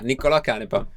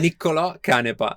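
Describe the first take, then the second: First: The name is said at normal speed. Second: The name is said slowly.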